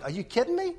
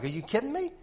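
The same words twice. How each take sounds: First: High-pitched disbelieving exclaim; incredulous. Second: High, soft disbelieving exclaim; a stunned, pitched-up ask; incredulous. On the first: Retelling the thought at the dealership, high incredulous squeak. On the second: Retelling the random thought, high disbelief. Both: Retold or imitated. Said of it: "Just like I said it outside".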